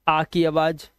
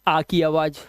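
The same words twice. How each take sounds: The two takes are said the same way.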